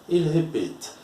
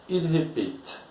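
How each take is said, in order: The two takes are said the same way.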